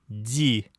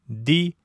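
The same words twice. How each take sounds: First: The d is said soft, with softening. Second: The d is said hard, without softening. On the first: "со смягчением" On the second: "без смягчения"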